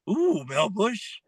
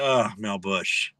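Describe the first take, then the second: First: It sounds delighted and excited. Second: It sounds disgusted and unhappy.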